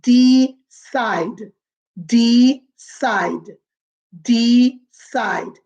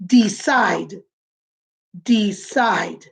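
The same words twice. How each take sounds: First: De-cide, two beats clearly marked; syllables split apart. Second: Decide, lower, two clear beats; syllables split apart. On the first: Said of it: "hear the syllables". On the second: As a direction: tap out each part of decide. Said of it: "You say it". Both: Shown as a demonstration.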